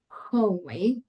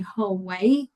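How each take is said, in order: First: The first vowel is narrow and closed. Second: The first vowel is wide and open. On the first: The speaker calls it wrong. "I've heard people saying hallway, like in a hole" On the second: The speaker calls it right. "let's open a little bit the mouth to say hallway"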